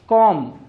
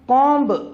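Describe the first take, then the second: First: The word ends on an m sound. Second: The word ends with a b sound. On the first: The speaker calls it right. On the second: The speaker calls it wrong.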